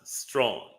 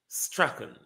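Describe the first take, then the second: First: The surname is said as one syllable. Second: The surname is said with two syllables. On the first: The speaker calls it wrong. "not Strawn" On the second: The speaker calls it right. "It's pronounced Strachan"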